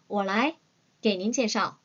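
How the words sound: It is said with a pause in the middle. "굳이 끊는다면 이렇게 끊어주시면 되겠습니다"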